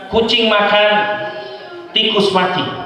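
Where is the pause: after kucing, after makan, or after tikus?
after makan. The pause comes after makan.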